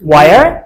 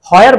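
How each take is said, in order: First: It is said as one syllable, 'wair'. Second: It is said as two syllables, 'ho-yer'. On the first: The speaker calls it right. "আমরা বলবো where" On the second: The speaker calls it wrong. "where বলা যাবে না"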